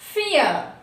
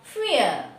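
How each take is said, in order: The two takes are said the same way.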